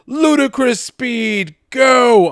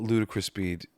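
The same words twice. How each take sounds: First: Very high, loud, drawn-out yell; shouted movie command. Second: Said in the usual way. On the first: Acted. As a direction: yell the launch order, stretching it out.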